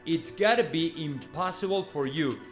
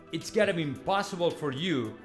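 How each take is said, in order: Both takes have the same delivery.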